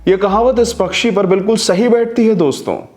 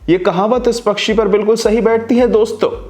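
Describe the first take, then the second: First: It is said slowly, ending smoothly. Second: The last word gets a sudden jerky push.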